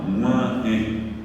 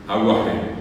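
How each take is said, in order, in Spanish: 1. El sonido gu es nasalizado. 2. El sonido gu es oral. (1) "Pero cuando yo digo mua" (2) "No es aguajé, Gua sería la G normal"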